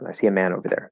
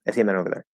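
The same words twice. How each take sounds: First: The sentence is spoken at a normal, careful pace. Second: The sentence is spoken very fast and lazily.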